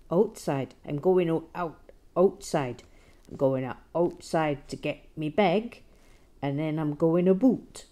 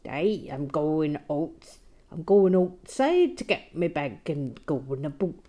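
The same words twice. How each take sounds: First: A louder, hammed-up Canadian accent, "a boot" for "about"; bad Canadian accent. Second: A loud, hammed-up Canadian accent, "Hey" drawn out slowly; bad Canadian accent. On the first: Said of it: "my very bad Canadian accent now". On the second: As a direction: ham up a terrible Canadian accent. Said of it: "just really bad".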